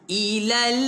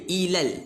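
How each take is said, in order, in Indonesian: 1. Kata ini dipanjangkan terlalu lama. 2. Kata ini diucapkan pendek dan langsung. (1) "bunyi dia panjang sangat" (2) "Dia ilal terus"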